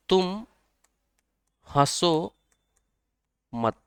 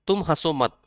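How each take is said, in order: First: Each word set apart by long pauses; tum, haso, mat — one word at a time, slowly; slow spaced mnemonic. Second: Said in the usual way. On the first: Shown as a demonstration. ("तुम" "हंसो" "मत" धीरे-धीरे, हर शब्द के बाद लंबा ठहराव) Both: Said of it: "ते से हम कह दे तुम".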